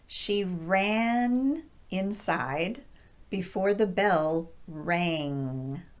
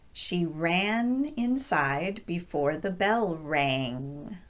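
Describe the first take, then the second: First: The sentence is spoken very slowly. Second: The sentence is spoken a bit faster. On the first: "very slowly the first time" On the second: "a little bit faster the second time"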